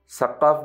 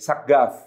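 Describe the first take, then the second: First: The name is said with the Arabic q sound. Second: The name is said with a g sound. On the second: "dalam dialek Yamani ... dilafazkan sebagai Saggaf"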